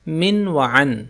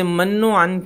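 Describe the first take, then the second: First: The first syllable has an 'i' vowel. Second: The first syllable has an 'a' vowel. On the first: The speaker calls it right. "ये सही लफ्ज़ है मिन व अन।" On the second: The speaker calls it wrong. "बाज़ लोग इसे मन्नो अन कहते हैं। मन्नो अन कहना गलत है।"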